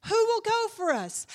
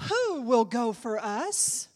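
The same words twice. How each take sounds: First: High, loud cry falling at the end; heightened preached call. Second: Slow, loud question rising at the end; measured preached call. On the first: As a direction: cry the question out to the crowd. Second, heightened take of call. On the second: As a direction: draw the question out in the usual pitch. First take of repeated call. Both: Acted.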